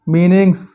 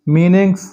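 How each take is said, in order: Both takes have the same delivery.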